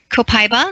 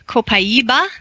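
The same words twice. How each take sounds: First: It is pronounced with an American accent. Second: It is pronounced with a Brazilian accent. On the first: "the Americans say copaiba" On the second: "the Brazilians say copaiba"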